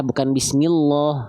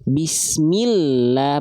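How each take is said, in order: First: "bismillah" said as "bismilloh" with a heavy dark lam; wrong thick lam. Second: "Bismillah" very slow with a long, thin lam. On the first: Teacher showing students the wrong heavy lam, thick Bismilloh. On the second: Teacher reciting for students, very slow thin Bismillah. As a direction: draw "Bismillah" out slowly, lam light. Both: Shown as a demonstration.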